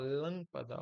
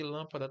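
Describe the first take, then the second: First: "Lâmpada" com a primeira sílaba, LÂM, forte e alongada; tônica em LÂM. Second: Said in the usual way. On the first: Shown as a demonstration. ("Lâmpada" com LÂM bem acentuado) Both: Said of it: "como é que eu falo?".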